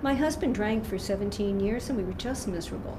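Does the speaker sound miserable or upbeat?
upbeat. The voice sounds light and positive, not suffering. The speaker has come through and found a solution. The speaker calls it right.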